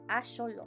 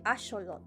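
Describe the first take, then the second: No difference in how they are said.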